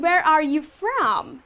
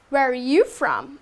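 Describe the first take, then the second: First: Every word is said fully and carefully. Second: It is said fluently, the R almost silent.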